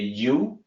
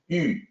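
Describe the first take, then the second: First: It is said like the English word you. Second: It is said with the Mandarin vowel sound. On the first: The speaker calls it wrong. "native English speakers, will look at that and say you" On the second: The speaker calls it right. "it's a little bit different. It's yu"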